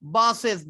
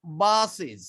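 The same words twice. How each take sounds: First: বাসেস with a hard, hissing "es" at the end; বাসেস ending crisp "es" like a snake hiss; wrong ending. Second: বাসেস with a light i and a z at the end; correct ending. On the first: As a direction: say বাসেস as "bas-es", sharp s. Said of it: "বাসেস এরকম না". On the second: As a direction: say বাসেস as "bas-iz", buzzing z. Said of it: "বর্গীয় জয়ের উচ্চারণ হবে". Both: Shown as a demonstration.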